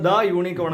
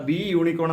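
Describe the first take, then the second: First: ദ short before unicorn; short "tha". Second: ദി with an ee before unicorn; wrong "thee" form. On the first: Teacher recalls the correct form, ദ short before unicorn. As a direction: say ദ with an open vowel, not "thee". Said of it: "എന്നാണ് പറഞ്ഞത്". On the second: Teacher contrasts the rejected form, ദി as "thee" before unicorn. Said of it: "എന്നല്ല പറഞ്ഞത്". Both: Shown as a demonstration.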